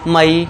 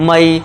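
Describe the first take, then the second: First: The vowel is a two-part 'a-ee' sound. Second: The same.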